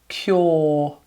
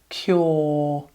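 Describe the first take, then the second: First: The vowel is one long or sound. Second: The same.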